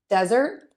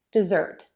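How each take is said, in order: First: "desert" as DEZ-ert, rising at the end; stress on first syllable. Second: "dessert" as de-ZERT, falling; stress on second syllable. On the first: Teacher says it again for contrast, first syllable of "desert" stressed. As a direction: longer first vowel in "desert", tune up. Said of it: "That vowel is a little bit longer in desert". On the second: Teacher says it again for contrast, second syllable of "dessert" stressed. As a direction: longer last vowel in "dessert", tune down. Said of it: "zert is going to be the longer vowel". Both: Shown as a demonstration.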